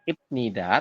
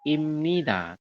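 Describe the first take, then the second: First: The first syllable ends with a b sound. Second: The first syllable ends with an m sound. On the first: The speaker calls it wrong. "tulisannya ibnida" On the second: The speaker calls it right. "dibacanya adalah imnida"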